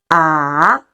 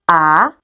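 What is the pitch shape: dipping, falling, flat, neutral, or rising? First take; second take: dipping; rising. First: The pitch dips low, then rises. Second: The pitch rises from middle to high. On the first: "Your pitch goes down first, then goes up" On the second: "We also call it rising tone. You're gonna raise the pitch a little bit"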